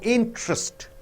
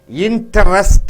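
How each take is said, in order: First: A middle vowel is squeezed out. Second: Every middle vowel is pronounced separately. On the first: The speaker calls it right. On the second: The speaker calls it wrong.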